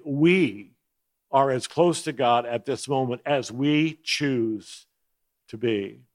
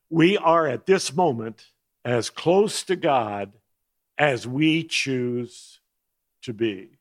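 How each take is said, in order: First: Emphatic "We", then the rest evenly. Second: Slow, weighty stress on "as close to God" and "as we choose"; emphatic reading. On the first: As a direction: stress punched on "We" at the start, the rest read through. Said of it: "saying emphatically". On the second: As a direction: lean hard and slow into "as we choose", every word deliberate. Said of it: "the emphasis is from the book". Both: Shown as a demonstration.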